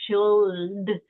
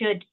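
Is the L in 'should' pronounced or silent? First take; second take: pronounced; silent. First: The L sound is clearly pronounced. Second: The L sound is silent. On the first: The speaker calls it wrong. "We don't say like" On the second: The speaker calls it right. "we're not really pronouncing the L"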